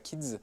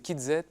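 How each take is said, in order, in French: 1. Elle se prononce comme un seul mot qui se termine par s. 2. La lettre Z se prononce après kid. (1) "on ne dit pas Kids" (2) "c'est Kid Z"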